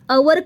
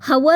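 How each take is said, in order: First: The word starts with a vowel, no h. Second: The word starts with an audible h sound. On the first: The speaker calls it right. "अवर का म्हणतो" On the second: The speaker calls it wrong. "असं हवर न म्हणता"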